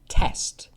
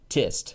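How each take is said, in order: First: The vowel is an open e, as in bed. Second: The vowel is raised, close to i in bit. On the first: "in the U K we say test" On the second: "In New Zealand they say tist"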